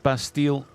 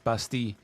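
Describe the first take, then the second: First: The word ends with a clear L sound. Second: The word ends without a clear L sound. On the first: This is the way it is said locally. "this is pronounced Bastille" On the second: This is the way French speakers say it. "they don't pronounce the L like that"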